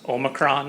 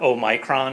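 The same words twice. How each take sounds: First: It is the American pronunciation. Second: It is the British pronunciation.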